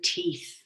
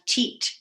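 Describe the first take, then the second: First: The word ends with a th sound. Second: The word ends with a plain t sound.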